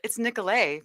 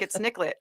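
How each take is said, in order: First: The name is said with a French pronunciation. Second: The name is said with an English pronunciation. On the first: The name comes from French. "but it's French" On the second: This is how people here say it. "People are like"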